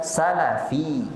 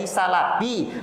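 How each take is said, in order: First: The middle consonant is an f sound. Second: The middle consonant is a p sound. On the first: It means a follower of the early generations. The speaker calls it right. "tapi jadilah salafi" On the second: It suggests an ointment rather than followers of the early generations. The speaker calls it wrong. "jangan jadi salafi"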